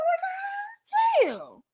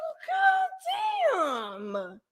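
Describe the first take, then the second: First: Drawn-out amazement. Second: Very slow, high, stretched God damn; high drawn-out "Well, God damn" shout; stretched-out amazed shout. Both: Retold or imitated. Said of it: "I said".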